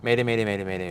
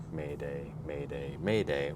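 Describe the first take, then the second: First: Fly through every "Mayday" without a pause; rushed-through Mayday. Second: Slow, separate Maydays with pauses; measured Mayday call. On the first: Shown as a demonstration. Showing the co-host how a reader might race through it, rushed. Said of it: "and just you fly through it". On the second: Retold or imitated. Echoing the co-host's careful reading of a distress call, measured. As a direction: space out each "Mayday" evenly and calmly. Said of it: "how you were saying the Mayday".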